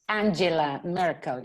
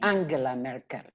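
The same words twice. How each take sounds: First: The name is said with an English pronunciation. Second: The name is said with a German pronunciation. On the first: The speaker calls it wrong. "You you don't say Angela Merkel" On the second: The speaker calls it right. "You say Angela Merkel. She's she's uh, she's German"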